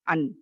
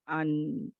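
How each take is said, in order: First: The final sound stops suddenly and sharply. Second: The final sound continues briefly before ending. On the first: The speaker calls it wrong. "अन ऐसे नहीं स्टॉप होगा।" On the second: The speaker calls it right. "थोड़ा-सा दरमियानी यानी आवाज़ को चलाते हुए पढ़ेंगे"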